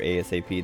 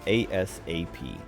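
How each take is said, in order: First: The word is said quickly and casually. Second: The word is slowed down and carefully enunciated. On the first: "instead of just saying I'll be there ASAP" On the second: "they'll like slow it down a bit"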